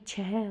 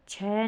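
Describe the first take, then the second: First: छः as "chheh", with final h; corrected pronunciation. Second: छः as open "chhai"; wrong pronunciation. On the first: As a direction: close छः on a breath of h. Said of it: "होगा". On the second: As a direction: say छः with an open vowel and no final h. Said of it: "नहीं". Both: Shown as a demonstration.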